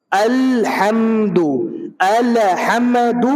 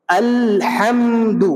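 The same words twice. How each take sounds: First: الحمد slow, with the ل bouncing back; drawn-out الحمد, releasing the ل wrongly; wrong pronunciation. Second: الحمد slow, the ل held silent with no release; drawn-out الحمد, the tongue resting on the ل; correct pronunciation. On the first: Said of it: "یہ غلط ہے". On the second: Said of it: "صحیح کیا ہے؟". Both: Shown as a demonstration.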